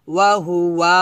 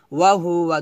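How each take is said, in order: First: "ওয়াহু ওয়া" with the last "wa" stretched; the mistaken take, lingering on the final vowel of "ওয়াহু ওয়া"; drawn-out "waa". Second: "ওয়াহু ওয়া" fast, with a short final "wa"; corrected "ওয়াহু ওয়া", every vowel kept short; quick, unstretched. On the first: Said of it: "টান দেবেন না". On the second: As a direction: say "ওয়াহু ওয়া" briskly, no lengthening. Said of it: "দ্রুত". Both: Shown as a demonstration.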